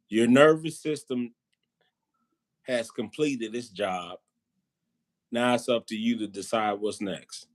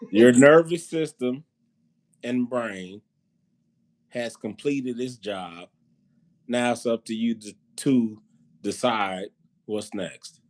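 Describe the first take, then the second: First: It is said at a normal pace. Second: It is said very slowly.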